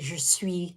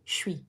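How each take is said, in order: First: Both words are said fully and separately. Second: The words are cut short and run together. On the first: "instead of saying je suis" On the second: "they say je suis. They cut it off"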